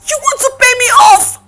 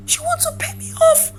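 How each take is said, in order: First: Loud, quick, affronted question; insulted and incredulous; indignant disbelief. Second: High, soft, wounded question; small, incredulous, near tears; hurt disbelief. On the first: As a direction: throw the offer back at them. Offered money to leave. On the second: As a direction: repeat it as the hurt sinks in. Repeats it, hurt sinking in. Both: Acted.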